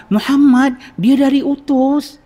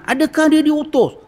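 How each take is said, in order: First: High, louder, joyful "dia dari utus"; thrilled the awaited guest has come; excited. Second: High, sharp, suspicious "Adakah dia diutus?"; harsh interrogation. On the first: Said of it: "dengan nada suara excitement". (nada gembira teruja) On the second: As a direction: grill him like a stern guard. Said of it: "Amboi garangnya". (soal dengan nada garang) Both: Retold or imitated.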